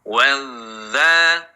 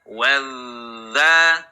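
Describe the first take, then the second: The two takes are said the same way.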